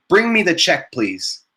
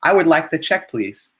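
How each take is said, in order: First: Curt, bossy order with me pushed up high; demanding tone. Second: Polite request. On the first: Teacher mocks a blunt diner's demanding order. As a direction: snap it out like a pushy diner. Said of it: "a very demanding thing". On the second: Teacher shows students a relaxed polite request. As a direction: ask gently, no pressure. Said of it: "relaxing way to ask for the bill". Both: Shown as a demonstration.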